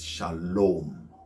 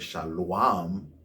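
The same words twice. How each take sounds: First: A long o vowel comes before the final m. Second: A consonant w sound comes before the final m. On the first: The speaker calls it right. "it's shalom" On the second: The speaker calls it wrong. "you don't say shalom"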